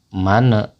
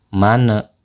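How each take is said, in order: The two takes are said the same way.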